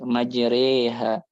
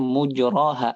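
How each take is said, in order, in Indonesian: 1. Vokal setelah r condong ke e. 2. Vokal setelah r adalah a terbuka biasa. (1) "Tapi Hafiz bacanya majre gitu" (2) "beberapa riwayat yang bacanya mujroha aslinya"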